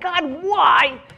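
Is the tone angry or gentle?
angry. It is said in an angry, demanding tone.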